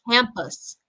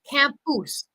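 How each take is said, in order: First: The second vowel is reduced to schwa. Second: The second vowel is a full vowel. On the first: The speaker calls it right. "replacing the vowels, the second vowels usually with an uh sound" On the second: The speaker calls it wrong. "I hear a lot of people say"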